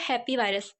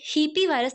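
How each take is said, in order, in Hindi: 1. यह नाम 'happy' शब्द जैसा सुनाई देता है। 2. नाम की शुरुआत लंबे 'ee' स्वर से होती है। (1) "ये है हैप्पी वायरस" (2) "ये हीपी वायरस नहीं"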